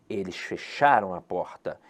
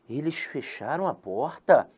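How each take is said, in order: First: It is said as an exclamation. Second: It is said as a question.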